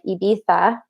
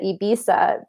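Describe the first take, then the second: First: It is said with a lisped Spanish accent. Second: It is said with a plain English accent. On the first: "they say like Ibiza because the Spaniard Spanish has a lisp" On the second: "we still pronounce it Ibiza because we speak English"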